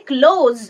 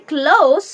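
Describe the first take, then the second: First: ক্লোজ ending in a voiced "z"; close with final Z. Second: ক্লোজ ending in a voiceless "s"; close with final S. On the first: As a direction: say ক্লোজ as "klohz", meaning shut. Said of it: "কিন্তু যখন উচ্চারণ হবে". (ক্লোজ, শেষে ঘোষ "জ" (z) ধ্বনি দিয়ে) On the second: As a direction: say ক্লোজ as "klohss", meaning near. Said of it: "যখন উচ্চারণ হবে". (ক্লোজ, শেষে "স" ধ্বনি দিয়ে "ক্লোস") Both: Shown as a demonstration.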